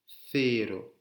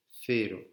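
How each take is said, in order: First: Cero with th, like thero; tongue between teeth on cero; lisped c. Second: Th sound for the c in Cero; lisped c. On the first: Teacher repeating cero with English th. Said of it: "comme le T H anglais". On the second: Teacher repeating Cero with Spanish z sound. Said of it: "Comme un Z espagnol". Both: Shown as a demonstration.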